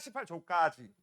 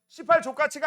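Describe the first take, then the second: First: The number is pronounced plainly and carefully. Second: The number sounds like a swear word. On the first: It is just a page number. The speaker calls it right. "발음 조심하세요" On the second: It sounds like cursing. The speaker calls it wrong. "밖에서 들으면 나 욕하는 줄 알아"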